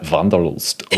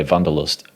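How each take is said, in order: First: "Vanderlust" slowly in a leaned-into German accent; exaggerated German accent. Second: "Vanderlust" with a V, in an everyday accent; understated pronunciation. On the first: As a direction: really flip into German for "Vanderlust". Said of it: "and really flipping your accent". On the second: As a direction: say "Vanderlust" lightly, without leaning into it. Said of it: "don't really lean into the pronunciation". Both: Shown as a demonstration.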